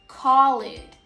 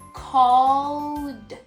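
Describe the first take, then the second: First: The ending adds an extra id syllable. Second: The ending is a plain d sound, no extra syllable. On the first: The speaker calls it wrong. "I hear so many students saying call it, That's not the right way" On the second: The speaker calls it right. "the verb becomes called"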